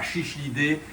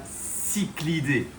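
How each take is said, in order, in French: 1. Ça commence par sh, puis un autre sh. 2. Ça commence par s, puis un son k. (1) "c'est pas chichlidés" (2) "c'est bien cyclidés"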